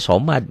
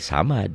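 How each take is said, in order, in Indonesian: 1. Vokal pertama terdengar seperti 'o' yang gelap. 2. Vokal pertama terdengar seperti 'a' yang jelas. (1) "Padahal Allahnya somad" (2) "nggak boleh samad"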